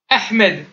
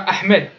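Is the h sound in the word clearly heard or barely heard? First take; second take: clearly heard; barely heard. First: The h sound is strong and clearly heard. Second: The h sound is weak and barely heard. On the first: The speaker calls it right. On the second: The speaker calls it wrong.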